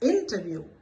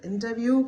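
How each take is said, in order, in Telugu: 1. ఒక అక్షరం మిగిలిన వాటికంటే స్పష్టంగా ఒత్తిడితో పలుకుతుంది. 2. అన్ని అక్షరాలకూ ఒకే బరువు ఉంటుంది.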